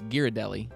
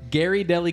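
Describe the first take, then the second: First: The name is said as one word, Ghirardelli. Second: The name sounds like two words, Gary Deli. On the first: It is the brand's real name. The speaker calls it right. "the correct way to pronounce that brand is" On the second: It is a joking way of saying the brand name. The speaker calls it wrong. "I just always say Ghirardelli because that's just"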